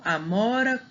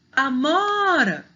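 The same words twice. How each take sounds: First: Said in the usual way. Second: AMORA called out, MO long, high and loud; calling the word. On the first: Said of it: "Chama aí a palavra". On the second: Shown as a demonstration. Teacher showing the strong syllable, calling aMOOra. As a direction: stretch and raise the MO in amora. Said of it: "o mó é a sílaba mais forte".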